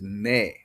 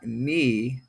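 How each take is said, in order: First: The vowel is said the Hawaiian way. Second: The vowel is said the English way. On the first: The speaker calls it right. "this is me, because of the Hawaiian vowel" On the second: The speaker calls it wrong. "this is not me"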